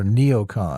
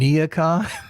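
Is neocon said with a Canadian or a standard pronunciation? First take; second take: standard; Canadian. First: The word is said with a standard pronunciation. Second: The word is said with a Canadian pronunciation. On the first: It is how most people say it. "most people say MAGA or neocon" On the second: It copies how a particular Canadian speaker says it. "He says MAGA and neocon. ... Are those Canadian pronunciations?"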